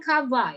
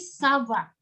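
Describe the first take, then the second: First: It begins with a hard K sound. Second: It begins with a soft S sound. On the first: The speaker calls it wrong. "Bacanya bukan kava ya" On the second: The speaker calls it right. "tapi sava"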